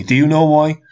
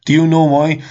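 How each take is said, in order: First: Said in the usual way. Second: Pressed again, a bit louder; insistent repeat. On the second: Real, not acted. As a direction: push the question harder.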